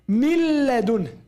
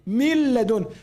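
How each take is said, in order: No difference in how they are said.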